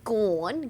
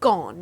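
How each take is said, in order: First: The word is said with a broad Australian vowel. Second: The word is said with a neutral, standard vowel. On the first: This is the way the speaker said it as a child. The speaker calls it wrong. "You don't say gone. Gone's gross" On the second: This is the approved way to say it. The speaker calls it right. "you say gone"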